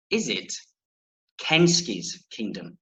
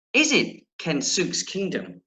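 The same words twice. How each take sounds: First: Kensuke's said as "KEN-skees"; Japanese-style pronunciation. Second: Kensuke's said as "ken-SOOKS"; alternative pronunciation. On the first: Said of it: "as a Japanese friend reliably informs me". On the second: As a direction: say Kensuke's with a long "oo", ending "sooks". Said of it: "the latter meaning the, the, the, last one I read". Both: Shown as a demonstration.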